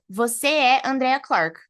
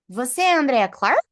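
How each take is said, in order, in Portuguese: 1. Ela é dita com entonação de afirmação. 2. Ela é dita com entonação de pergunta.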